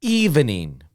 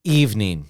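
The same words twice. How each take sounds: First: Evening in three syllables, EV-E-NING. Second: Evening in two syllables, EVE-NING. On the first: Teacher contrasts the full form with the short one. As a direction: say every beat of evening. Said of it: "three sounds". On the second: Teacher contrasts the short form with the full one. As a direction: clip the middle vowel out of evening. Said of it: "Two sounds". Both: Shown as a demonstration.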